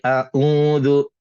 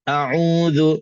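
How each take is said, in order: First: The first sound is a light, relaxed glottal stop. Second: The first sound is pressed and strained in the throat. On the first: The speaker calls it wrong. "Dia tak boleh a'udhu" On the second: The speaker calls it right. "pastikan kita kena tekan sikit"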